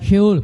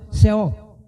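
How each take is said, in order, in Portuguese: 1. É dita com a pronúncia original do hebraico. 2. É dita com uma pronúncia adaptada ao português. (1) "Em hebraico é sheol, pronúncia difícil" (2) "Em português você fala seol. Estou adaptando"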